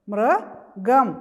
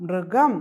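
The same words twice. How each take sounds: First: Loud rising teacher model of മൃഗം; teacher sounds out മൃഗം for the class; drawn-out model word. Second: Said in the usual way. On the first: Shown as a demonstration. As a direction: say മൃഗം loud and stretched, syllable by syllable. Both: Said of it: "പറഞ്ഞേ".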